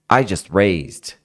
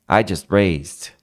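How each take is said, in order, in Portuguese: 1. Dito rápido, com o T totalmente omitido. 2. Dito rápido, com o T totalmente omitido.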